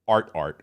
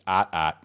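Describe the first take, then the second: First: It is said in a general American accent. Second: It is said in a Northeastern US accent.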